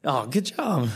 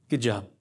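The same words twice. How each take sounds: First: Teasing "good job" with a drawn-out falling "job"; playful praise for the crowd; mock praise. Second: Said in the usual way. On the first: Shown as a demonstration. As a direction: pat them on the head with "good job".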